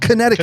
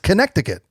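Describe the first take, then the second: First: The middle c is not pronounced. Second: The middle c is clearly pronounced. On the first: The speaker calls it wrong. "It's not Connecticut" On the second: The speaker calls it right. "That's how it's spelled"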